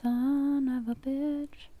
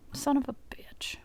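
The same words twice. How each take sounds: First: Very slow, stretched-out exasperation; slow drawn-out curse. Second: Hushed, frustrated whisper; whispered curse. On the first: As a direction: drag each word out in defeat. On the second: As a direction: curse under your breath. Setup fails again. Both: Real, not acted.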